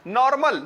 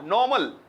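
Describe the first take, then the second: First: The r sound after the vowel is pronounced. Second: The r sound after the vowel is silent. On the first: The speaker calls it wrong. "No" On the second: The speaker calls it right. "जब भी कोई सेलेबल एंड हो आर पे वो भी silent होना चाहिए"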